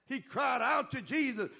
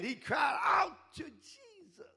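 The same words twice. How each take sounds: First: Said in the usual way. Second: "out" drawn out, slow and higher; leaning on out, slow and high. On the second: Shown as a demonstration.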